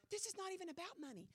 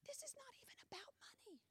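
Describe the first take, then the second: First: Said in the usual way. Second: Fast hushed whisper, much softer; secretive repeat under the breath. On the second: Shown as a demonstration. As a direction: lean in and whisper the point. Says line, then whispers it.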